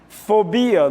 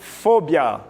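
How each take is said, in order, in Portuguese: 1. A tônica está numa sílaba posterior. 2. A tônica está na primeira sílaba.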